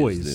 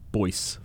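First: The word ends with a z sound. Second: The word ends with an s sound. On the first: "Z sound. so it should be boys" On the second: "It's like voice"

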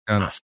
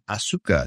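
First: The vowel after the s is dropped. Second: The vowel after the s is fully pronounced. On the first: The speaker calls it right. "She's Asuka" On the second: The speaker calls it wrong. "Asuka is not Asuka"

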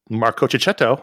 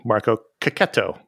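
First: The middle 'cch' is said with a 'ch' sound. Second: The middle 'cch' is said with a 'k' sound. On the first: The speaker calls it wrong. "as we used to say" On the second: The speaker calls it right. "the K sound is represented by the C or the CH"

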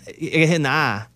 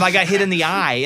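First: It is said in an Arkansas accent. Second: It is said in a standard accent.

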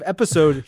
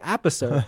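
First: It is said in a standard accent. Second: It is said in a thick Minnesota accent.

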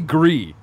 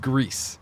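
First: The word ends on a vowel without s. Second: The word ends with an audible s sound. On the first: This is the official pronunciation. The speaker calls it right. "Technically Gree" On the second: This is the popular pronunciation. The speaker calls it wrong. "but everyone says Greece"

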